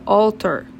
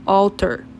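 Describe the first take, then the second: First: The word is pronounced the English way. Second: The word is pronounced the English way.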